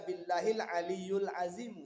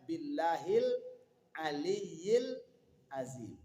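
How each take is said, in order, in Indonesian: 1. Kata tengah dibaca aliyul. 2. Kata tengah dibaca aliyil. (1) "Jangan nanti dibaca ... salah" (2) "Jadi makanya bacaannya"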